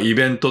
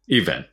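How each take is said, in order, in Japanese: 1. 最初の音節にアクセントはない。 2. 最初の音節にアクセントがある。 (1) "日本語でもイベントって言いますが" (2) "最初にアクセントがあります"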